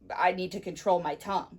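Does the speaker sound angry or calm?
angry. The voice sounds angry and harsh. The speaker is upset with the listener. "You must be angry at me"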